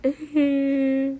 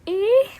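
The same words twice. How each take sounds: First: Sad groan. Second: High, loud whiny "Eh?"; a trial sad noise, pitched high; sad whimper. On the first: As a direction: let out a droopy sad grunt. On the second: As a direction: squeak out a sad little noise. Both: Shown as a demonstration. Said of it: "what noise is that supposed to be".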